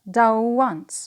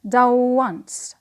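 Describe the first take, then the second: First: 'Done' ends in a w sound linked to once. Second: 'Done' ends in a w sound linked to once.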